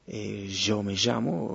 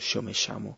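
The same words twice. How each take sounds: First: The ll sounds like the s in measure. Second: The ll sounds like English sh. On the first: "se dice Y" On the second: "se dice She"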